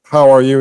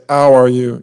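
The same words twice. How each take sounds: First: Said in the usual way. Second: "How" said as "ow" with no h at all; dropped h. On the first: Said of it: "like you want to say". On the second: Shown as a demonstration. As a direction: drop the h: "ow are you". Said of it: "which is when you can't aspirate".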